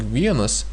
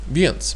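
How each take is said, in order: First: The word is said in full with both syllables. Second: The word is shortened, dropping the final vowel. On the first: "instead of saying vienas" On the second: "people most often say viens"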